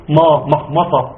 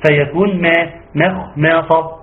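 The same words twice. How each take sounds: First: مخمصة with a thick, dark "ma"; heavy meem. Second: مخمصة starting with a thin "mae" as in ماء; light meem. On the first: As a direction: thicken the first م of مخمصة as a mistake. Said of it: "ليه بتقول ما؟". (مخمصة بتفخيم الميم) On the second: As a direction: keep the first م of مخمصة light. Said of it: "بنوزن على مين بتاعت ماء". (مخمصة بترقيق الميم) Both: Shown as a demonstration.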